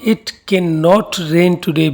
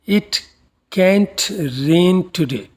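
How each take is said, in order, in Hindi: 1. नेगेटिव दो पूरे शब्दों के रूप में बोला जाता है। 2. नेगेटिव एक सिलेबल में संक्षिप्त हो जाता है।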